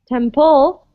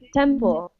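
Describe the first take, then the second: First: The stress is on the second syllable. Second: The stress is on the first syllable. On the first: The speaker calls it wrong. "don't say temple" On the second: The speaker calls it right. "we say temple. It's on the tem"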